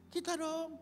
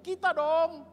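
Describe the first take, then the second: First: High-pitched, no shouting; high, contained insistence; high repeat. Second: Loud, high exclamation; high, punched-out pulpit cry; emphatic shout. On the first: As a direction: pitch it high, keep the volume down. Same words repeated at normal level. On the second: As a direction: shout it out at the congregation. Preacher shouts emphatic answer. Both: Real, not acted.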